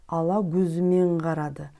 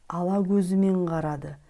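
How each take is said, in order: Both takes have the same delivery.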